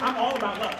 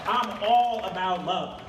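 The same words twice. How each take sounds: First: Said in the usual way. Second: "I'm all about love" drawn out, every word weighted; slow down and lean on "all"; slow emphatic repeat. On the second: Shown as a demonstration. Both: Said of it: "repeats it slowly".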